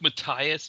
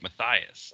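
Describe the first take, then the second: First: The middle consonant is a plain 't' sound. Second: The middle consonant is an English 'th' sound. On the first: It follows the original German form. "I go with Matthias because he's German" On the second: It is the anglicized form. "he may have anglicized it when he came over here to make it Matthias"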